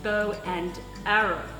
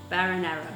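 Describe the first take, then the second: First: Each word is said clearly: bow, and, arrow. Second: The first words run together, sounding like baron. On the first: The speaker calls it right. "it's bow and arrow" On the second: The speaker calls it wrong. "he'd say, no, Baron Arrow"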